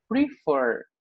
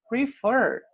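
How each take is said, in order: First: Said in the usual way. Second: "Prefer" said higher, with the weight on the last syllable fer; stress on fer. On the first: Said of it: "o fer, que é o final, é mais forte". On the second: Shown as a demonstration. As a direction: lift and lean into fer in "Prefer". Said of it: "o fer, que é o final, é mais forte do que o pre". ("Prefer" com ênfase forte na sílaba fer)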